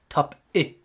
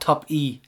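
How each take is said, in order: First: The name ends in a short 'it'-like sound. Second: The name ends in a long 'ee' sound. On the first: The speaker calls it right. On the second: The speaker calls it wrong. "Not top e"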